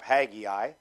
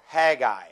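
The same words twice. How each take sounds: First: Haggai in three syllables, HAG-ee-eye; familiar pronunciation. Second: Haggai in two syllables, HAG-eye; alternate pronunciation. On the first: Preacher saying Haggai as heard growing up, three-syllable pronunciation. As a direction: say Haggai with an "ee" in the middle. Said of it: "I've always heard it pronounced". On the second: Preacher offering the other way to say Haggai, two-syllable pronunciation. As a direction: say Haggai without the middle "ee". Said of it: "pronounce it that way". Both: Shown as a demonstration.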